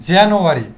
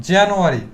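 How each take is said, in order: No difference in how they are said.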